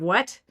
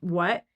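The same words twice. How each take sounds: First: The final T is clearly pronounced. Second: The final T becomes a glottal stop. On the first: "instead of" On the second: "They have noticed people saying"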